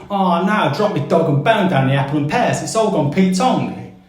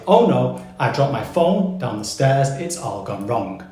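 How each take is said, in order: First: A Cockney mate moaning about his dog and bone; Cockney accent. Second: Said in the usual way. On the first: Shown as a demonstration. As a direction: drop into a broad East End Cockney. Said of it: "So if a Cockney says to you". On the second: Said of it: "what they actually mean to say is".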